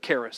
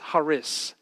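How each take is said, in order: First: The word begins with a hard K sound. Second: The word begins with a breathy H sound. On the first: It is used as an English given name. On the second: It is spoken as in the Greek language.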